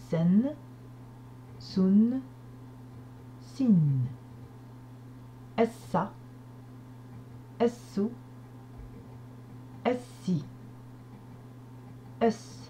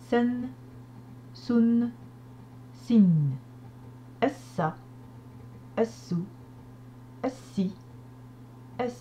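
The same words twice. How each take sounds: First: The syllables are read slowly and gently. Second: The syllables are read at a normal pace.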